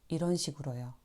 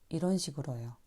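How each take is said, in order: Both takes have the same delivery.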